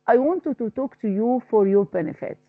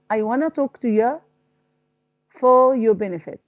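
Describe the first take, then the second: First: The words are said in full. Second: The words are reduced to wanna. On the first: The speaker calls it wrong. "I don't say that" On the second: The speaker calls it right. "I say wanna"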